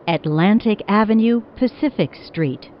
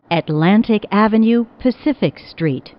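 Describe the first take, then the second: No difference in how they are said.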